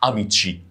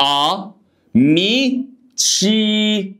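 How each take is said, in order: First: Said in the usual way. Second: "ا، مي، تشي" as separate a, mee, chee, held high; syllable-by-syllable model. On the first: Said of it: "صح، اميتشي". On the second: Shown as a demonstration. Teacher checks the student's attempt, sounding out "ا، مي، تشي" high and separated. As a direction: sustain each syllable of "ا، مي، تشي" on a raised pitch. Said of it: "كان نطقك صح ولا غلط".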